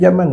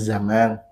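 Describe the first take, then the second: First: The word starts with a j sound. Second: The word starts with a z sound. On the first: The speaker calls it wrong. "nggak ada zaman" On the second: The speaker calls it right. "yang ada zaman"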